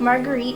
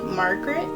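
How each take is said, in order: First: The name ends with a long 'eet' sound. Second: The name ends with a short 'et' sound. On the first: "Marguerite is the way that I pronounced it" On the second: "maybe it was pronounced like Margaret"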